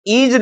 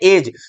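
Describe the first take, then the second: First: The first vowel is a long 'ee' sound. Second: The first vowel is a short 'e' sound. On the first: The speaker calls it wrong. "हम इसको ईज नहीं बोलते हैं" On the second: The speaker calls it right. "इसको क्या बोलते हैं? एज।"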